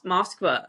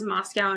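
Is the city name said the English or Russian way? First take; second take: Russian; English. First: The name is said with a Russian pronunciation. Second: The name is said the usual English way.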